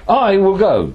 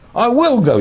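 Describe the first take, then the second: First: The stress falls on the word I. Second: The stress falls on the word will. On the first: The speaker goes while others stay behind. "you lot can stay behind" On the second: Nobody can prevent the speaker from going. "you can't do anything about it"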